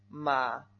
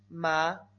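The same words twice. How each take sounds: First: It is said with a low dipping third tone. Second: It is said with a rising second tone.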